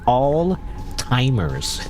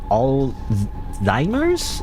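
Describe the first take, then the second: First: The middle consonant sounds like a t. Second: The middle consonant sounds like a z. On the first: This is how people usually say it. "when people say Alzheimer's, I hear ... like all timers" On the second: This follows the spelling of the word. "But then there's a Z, so technically it's like all Zymers?"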